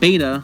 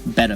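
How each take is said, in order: First: It sounds like the Greek letter beta. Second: It does not sound like the Greek letter. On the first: The speaker calls it wrong. "A common mistake is to call it beta, like the alpha and beta in Greek terminology" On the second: The speaker calls it right. "the proper pronunciation is actually betta fish"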